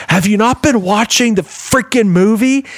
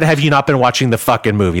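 First: High-pitched, emphatic imitation of a scolding; retold exasperated rebuke. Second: Said in the usual way. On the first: Wife turns round to the talker in the theater, exasperated retold rebuke. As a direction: act out an indignant telling-off. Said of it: "and she goes". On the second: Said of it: "okay, no, she said".

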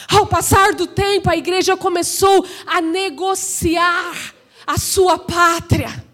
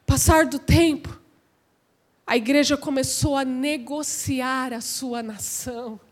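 First: Emphatic pulpit declaration; raised preaching voice. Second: Low, soft, sinking delivery; hushed, grave preaching. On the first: Preacher charging that the church negotiated its homeland, emphatic. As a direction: proclaim it, easing on the last phrase. Same sentence repeated with raised voice. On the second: Preacher confiding the church's compromise to the congregation, hushed. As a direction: drop right down and let it fade. Same sentence first hushed, then raised. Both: Real, not acted.

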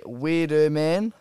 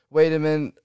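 First: Slow "Wiedemann" as WID-uh-man; corrected pronunciation of Wiedemann. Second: "Wiedemann" with WAY as first syllable; first pronunciation of Wiedemann. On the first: Host correcting himself on a player's name, slow "Wiedemann" ending in MAN. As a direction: draw out "Wiedemann", full final MAN. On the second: Host reading out goal scorers, "Wiedemann" as WAY-duh-mun. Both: Real, not acted. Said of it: "we-, sorry".

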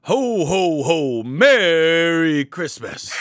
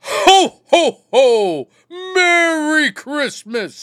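First: Half-hearted slow Santa; a weak, drawn-out Santa ho ho ho; Santa impression. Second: Booming high jolly ho ho ho; Santa impression. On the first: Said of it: "your guys' best Santa impression". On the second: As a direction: belt out a big, slow, jolly Santa greeting. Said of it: "You wanna see how it's done?". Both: Shown as a demonstration.

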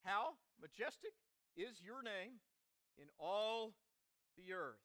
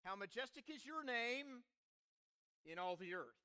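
First: Phrase by phrase, pausing between; leading group recitation. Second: Psalm recited in a connected phrase; psalm refrain. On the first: Preacher to congregation, say it with me, paced for joining in. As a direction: lead them through it in short, separated phrases. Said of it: "say it with me". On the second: Preacher quoting the psalm's refrain, recited in one flow. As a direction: recite it as a refrain, falling at the end. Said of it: "refrain of a great song". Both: Shown as a demonstration.

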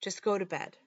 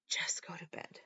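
First: Said in the usual way. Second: Soft breathy whisper to herself. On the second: Retold or imitated. Mother alone with the bottle whispers to herself. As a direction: barely breathe the words. Mom talking herself out of drinking.

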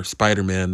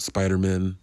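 First: Said in the usual way. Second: "Spider-Man" said like a surname, last syllable weakened; surname-like pronunciation. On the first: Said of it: "not Spider-Man". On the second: Shown as a demonstration. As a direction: reduce the "Man" in "Spider-Man" to an unstressed "mun". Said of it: "Sounds like Jewish superhero".

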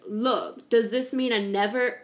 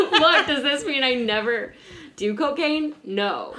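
First: Lightly attempted British accent; a hint of a British accent. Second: Laughing, higher-pitched retelling; amused, raised voice breaking into laughter; British accent dropped. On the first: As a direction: try out a British accent, half-committed. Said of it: "I'll do my British accent". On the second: Retold or imitated. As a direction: give up the accent and quote him through giggles. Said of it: "okay, I'm not doing British accent".

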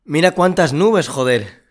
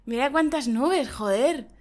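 First: Higher, louder, slow amazed exclamation; looking up at a cloudy sky, amazed; surprised. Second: Half-hearted mock amazement; host failing to copy the surprised tone; flat imitation of surprise. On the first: Pretend. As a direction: marvel at the sky. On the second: Shown as a demonstration. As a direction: try the line, it falls flat. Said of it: "a mí no me sale igual que a ti".

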